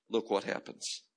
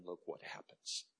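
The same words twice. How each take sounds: First: Said in the usual way. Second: Hushed whisper, almost no voice; preacher whispering to build suspense. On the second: Shown as a demonstration. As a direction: lean in and whisper it.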